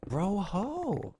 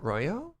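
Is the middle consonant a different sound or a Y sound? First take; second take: different sound; Y sound. First: The middle consonant is not a Y sound. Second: The middle consonant sounds like an English Y. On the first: The speaker calls it right. "Like the whitest possible accent on that too" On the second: The speaker calls it wrong. "I mispronounced the end bit all the time"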